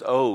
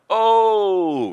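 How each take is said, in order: First: It is said casually, with little force. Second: It is cried out with strong intensity.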